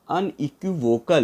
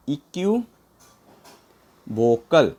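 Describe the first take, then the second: First: Said in the usual way. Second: equivocal very slow, a long pause before vocal; broken up slowly. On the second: Shown as a demonstration. Teacher helping learners remember, equivocal slowly in two parts. Teacher breaks word for memorizing.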